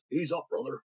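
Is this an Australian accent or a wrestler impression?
wrestler impression. Said in a put-on wrestler voice. "I'll do a voice"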